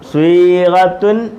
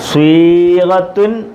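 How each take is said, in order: The two takes are said the same way.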